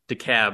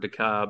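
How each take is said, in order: First: The last syllable sounds like 'cab'. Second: The last syllable does not sound like 'cab'. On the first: The speaker calls it right. "It's DeKalb, like why call a cab when you can call DeKalb?" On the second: The speaker calls it wrong. "or any other pronunciation"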